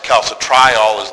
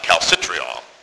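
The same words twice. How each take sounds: First: The 'tri' part is said clearly like 'try'. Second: The 'tri' part is blended into neighbouring syllables. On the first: The speaker calls it right. "that's why it's calcitriol is the pronunciation" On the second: The speaker calls it wrong. "and not calcitriol"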